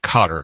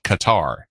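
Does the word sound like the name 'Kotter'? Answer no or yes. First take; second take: yes; no. First: It sounds like 'Kotter'. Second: It does not sound like 'Kotter'. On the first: This is the newer, current pronunciation. "they changed to Qatar, kind of like welcome back Qatar" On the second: This is the older pronunciation taught in the United States. "when I was taking sixth grade geography, it was called Qatar"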